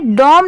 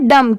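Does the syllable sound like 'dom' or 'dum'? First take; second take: dom; dum. First: The vowel is an open 'o' sound. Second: The vowel is a short 'uh' sound. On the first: The speaker calls it wrong. "इसे डॉम नहीं pronounce करेंगे" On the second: The speaker calls it right. "इसकी sound क्या आ रही है, डम की"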